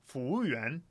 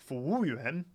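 No difference in how they are said.

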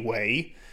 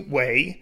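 First: The syllable is said with a rising tone. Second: The syllable is said with a falling tone. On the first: "it tends to always be second tone, like Yi Wei" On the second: "when it's a little bit more formal, it tends to be Wei"

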